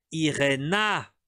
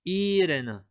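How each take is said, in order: First: "Irena" slow, with a clear final -a; correct form. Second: "Irene" with a silent final e; wrong name form. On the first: Teacher giving students the correct name, slowly. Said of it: "É isso". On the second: Teacher voicing the mistaken form of the name. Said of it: "Ó, Irena. É isso". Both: Shown as a demonstration.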